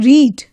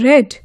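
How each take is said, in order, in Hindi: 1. स्वर लंबा है, seed की तरह। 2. स्वर छोटा है, bed की तरह। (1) "V one में कैसे परफॉर्म प्रोनाउंस करेंगे?" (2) "इनको हम V two और V three फॉर्म में कैसे प्रोनाउंस करेंगे?"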